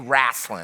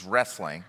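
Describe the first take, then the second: First: The word has a Southern US pronunciation. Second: The word has a standard American pronunciation. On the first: "I'm from the southern states of the United States. We say wrestling" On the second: "Maybe you say it correctly, which is wrestling"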